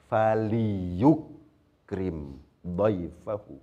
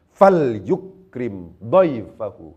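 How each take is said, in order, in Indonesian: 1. Huruf l diikuti vokal pendek. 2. Huruf l diucapkan tanpa vokal setelahnya. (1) "Asalnya apa?" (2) "Kenapa kok kemudian disukun?"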